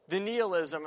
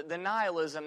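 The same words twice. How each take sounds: First: First syllable of NIHILISM rhymes with "knee"; variant pronunciation. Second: First syllable of NIHILISM rhymes with "sigh"; self-corrected pronunciation. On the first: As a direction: say NIHILISM as NEE-uh-lizm. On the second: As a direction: say NIHILISM as NIGH-uh-lizm. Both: Real, not acted. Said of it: "or the, the nihilism".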